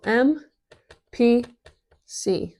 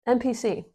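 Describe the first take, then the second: First: M, P, C each letter set apart with a pause; each letter of M P C given its own beat; spelled out slowly. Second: Said in the usual way. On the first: Shown as a demonstration. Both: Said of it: "Sounds cool".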